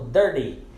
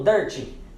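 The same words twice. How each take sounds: First: The middle consonant sounds like a soft d. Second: The middle consonant is a clear t sound. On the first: The speaker calls it right. "então vai pronunciar ele como dirty" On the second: The speaker calls it wrong. "Então não vai pronunciar ele como dirty"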